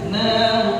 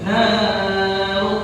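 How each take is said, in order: First: The vowel is held for a normal short length. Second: The vowel is stretched out much too long. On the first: The speaker calls it right. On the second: The speaker calls it wrong.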